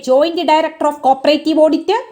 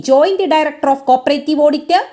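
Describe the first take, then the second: The two takes are said the same way.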